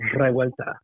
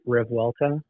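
First: It is said the Spanish way, R rolled. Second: It is said the English way, without a trill.

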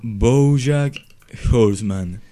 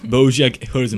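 First: The name is said very slowly. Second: The name is said at normal speed.

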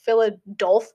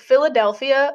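First: The middle syllable sounds like 'dolf'. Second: The middle syllable sounds like 'del'. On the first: "I think some people be like Philadolph" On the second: "I think I say in a Midwest accent"

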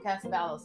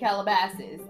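First: The syllables are jumbled, sounding like Casabalos. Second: The syllables are in order, sounding like Calabasas. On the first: The speaker calls it wrong. "I just wanted to pronounce it wrong" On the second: The speaker calls it right. "I will say Calabasas"

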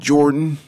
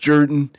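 First: The name follows its spelled pronunciation. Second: The name departs from its spelled pronunciation. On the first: This is not how local people say the name. The speaker calls it wrong. "not Jordan" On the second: This is how local people say the name. The speaker calls it right. "despite the spelling of J-O-R-D-A-N, it's pronounced Jordan"

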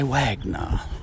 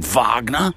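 First: The name is said with an English-sounding pronunciation. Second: The name is said with a German-sounding pronunciation. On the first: "I say Wagner" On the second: "like a Nazi saying Wagner"

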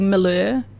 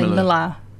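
First: The name ends with an 'er' sound. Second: The name ends with an 'ar' sound. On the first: This matches the family's actual name. The speaker calls it right. "we're technically Miller" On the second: This is how the family actually says it. The speaker calls it wrong. "we all say Miller which is the AR"

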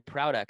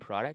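First: The first syllable sounds like 'proud'. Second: The first syllable sounds like 'prod'. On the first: It is the company's own pronunciation of its name. "we pronounce it product... like proud and product" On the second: It is how others assume the name is said. "they'll go, you mean product?"

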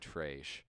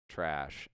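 First: The word is said in a northern Minnesota accent. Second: The word is said in a standard accent. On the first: "people from northern Minnesota and Canada and whatever say trash" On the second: "instead of trash"

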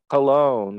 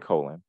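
First: The stress is on the second syllable. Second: The stress is on the first syllable. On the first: The name is given a fancy pronunciation. The speaker calls it wrong. "And they're like" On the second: The name is read as it is spelled. The speaker calls it right. "There is nothing to indicate any kind of inflection on that second syllable"

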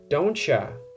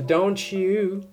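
First: The words blend into one reduced 'dontcha' sound. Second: The words are said separately in full form. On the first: "don't you become dontcha" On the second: "don't you become dontcha"

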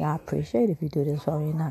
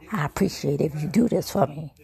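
First: It is said in a polite, asking tone. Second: It is said in a bossy, demanding tone. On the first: The speaker is making a request. The speaker calls it right. "You can say" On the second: The speaker is giving an order. The speaker calls it wrong. "Not I appreciate if you do this for me. Because then that means you're trying to tell me what to do"

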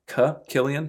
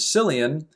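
First: The name is said in the Irish way. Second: The name is said in a non-Irish way. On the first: The speaker calls it right. "the Irish or Scottish pronunciation is actually Cillian" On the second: The speaker calls it wrong. "who I always used to pronounce as Cillian"

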